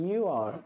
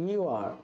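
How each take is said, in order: Both takes have the same delivery.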